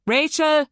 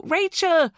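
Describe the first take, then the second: First: Loud, high searching shout; second searcher's loud call of the name; joining the yell. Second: High, loud cry of a name; yell. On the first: Boy joining the mother in shouting for Rachel. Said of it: "Dylan joined in". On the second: Mother yelling for her missing daughter, high and loud. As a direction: yell out to someone lost. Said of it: "she yelled". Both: A narrator's reading.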